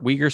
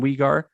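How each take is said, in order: First: The 'ar' sound is pronounced lightly. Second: The 'ar' sound is strongly over-pronounced. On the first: The speaker calls it right. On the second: The speaker calls it wrong.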